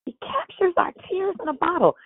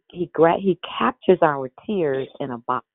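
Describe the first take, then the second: First: Much higher, lifted delivery of the line; high emphatic preaching repeat. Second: Said in the usual way. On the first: Real, not acted. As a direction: repeat it raised high to drive it home.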